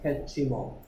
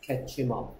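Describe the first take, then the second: First: The words are joined into one linked chunk. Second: The same.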